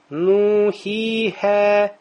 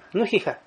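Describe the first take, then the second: First: The vowels are held very long. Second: The vowels are cut short. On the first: "как в Коране, когда мы читаем" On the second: "Но ты не скажешь"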